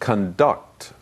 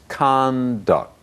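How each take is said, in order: First: The stress is on the second syllable. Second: The stress is on the first syllable. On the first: It is used as a verb. "The verb is conduct" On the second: It is used as a noun. "but the noun is conduct"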